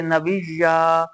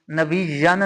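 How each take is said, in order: First: नबिया slowly, ending on a long आ; stopping form. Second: नबियन with the final -न sounded; wrong tanween form. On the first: Teacher gives the correct stop, slow नबिया with long final आ. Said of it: "बल्कि नबिया". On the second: Teacher names the wrong reading, नबियन with final न. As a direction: say नबियन ending on न. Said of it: "नबियन नहीं पढ़ेंगे". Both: Shown as a demonstration.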